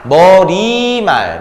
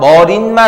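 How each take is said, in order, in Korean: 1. '말' 앞에 'ㄴ' 소리가 첨가되지 않아요. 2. '말' 앞에 'ㄴ' 소리가 첨가돼요. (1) "조심하세요" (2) "머릿말 아니야"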